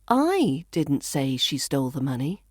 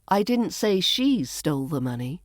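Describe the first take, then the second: First: The stress falls on the word I. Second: The stress falls on the word she. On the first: Someone else said it. "So I could be saying somebody else did" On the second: Someone else stole it. "Maybe someone else stole it"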